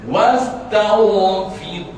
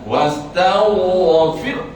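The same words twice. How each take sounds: First: The final sound is released lightly. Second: The final sound is forcefully exaggerated. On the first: The speaker calls it right. "Macam tu cukuplah" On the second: The speaker calls it wrong. "jangan wastaghfir. Ah, itu memang tak betul"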